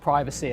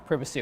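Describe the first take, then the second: First: The word has an American pronunciation, long first vowel. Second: The word has a British pronunciation, short first vowel.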